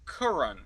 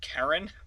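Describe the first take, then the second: First: The first vowel sounds like 'cur'. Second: The first vowel sounds like 'care'. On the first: The speaker calls it right. "oh, Curran. Okay, I guess it's pretty close to Karen" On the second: The speaker calls it wrong. "I want to call you Karen, which is you know I'm sure that's not what you're aiming for"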